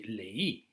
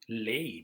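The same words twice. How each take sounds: First: The stress falls on the second syllable. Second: The stress falls on the first syllable. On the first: The speaker calls it right. "You have to say leí" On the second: The speaker calls it wrong. "if you wouldn't put a stress on the E, the emphasis would be on the A"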